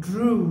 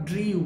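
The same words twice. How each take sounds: First: Drew said as DROO; correct pronunciation. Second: Drew said as DREE-yoo; wrong pronunciation. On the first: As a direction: say drew with a plain oo, no y. (drew সঠিকভাবে ড্রু) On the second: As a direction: mispronounce drew with a y glide. (drew ভুলভাবে ড্রিউ) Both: Shown as a demonstration. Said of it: "not drew".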